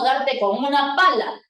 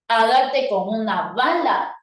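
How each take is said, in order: First: "pala" opened with a voiceless P, contrasted with B; P sound in pala. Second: "bala" opened with a voiced B, contrasted with P; B sound in bala. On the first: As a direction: say "pala" with a clear P. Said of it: "Ha cambiado la consonante P". ("pala" pronunciada con P clara) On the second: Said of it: "por la consonante". ("bala" pronunciada con B sonora) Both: Shown as a demonstration.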